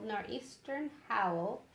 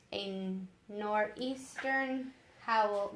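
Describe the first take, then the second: First: Slightly slow, joined-up narration; steady storytelling, rising at the end; smoother reread. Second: Drawn-out narration with careful pauses; slow, halting reading. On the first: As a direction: reread the phrase in one go. Rereads the phrase more fluently. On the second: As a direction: feel out the phrase slowly. First reading, then repeats it. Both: A narrator's reading.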